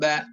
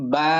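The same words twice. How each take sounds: First: The vowel is kept short. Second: The vowel is drawn out long. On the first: It is the letter read with its vowel mark. "হরকতের উচ্চারণ করার সময় টান দেওয়া যাবে না" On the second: It is the name of the letter. "টান হবে।"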